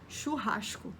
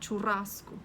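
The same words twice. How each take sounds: First: A throaty R and a hushed S are used. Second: A plain S and a Spanish-like R are used. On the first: "No Rio de Janeiro seria churrasco. Isso com o chiado ainda do carioca" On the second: "não falam o S chiado e conseguem falar o R um pouco mais parecido"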